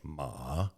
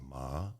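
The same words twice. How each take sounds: First: The pitch dips down then comes back up. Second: The pitch rises like a question. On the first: "The third tone is dipping ma" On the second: "The second tone is rising ma"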